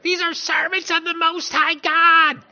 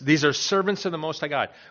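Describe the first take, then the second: First: It is said in an eerie put-on voice. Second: It is read in his natural voice.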